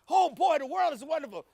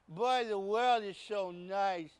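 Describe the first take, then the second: First: It is said with lively enthusiasm. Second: It is said flatly, without enthusiasm.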